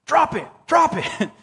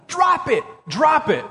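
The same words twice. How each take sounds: First: Slow, high mock demand to God; praying like the bear yell. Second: High retold shout that drops off; retold yell at the bear. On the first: Pastor showing how we demand things of God, slow mock plea. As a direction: turn the bear yell into a pleading prayer. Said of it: "we go to God with our requests". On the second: Pastor recalling yelling at the bear, mild mock yell. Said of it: "When I'm yelling at that stupid bear".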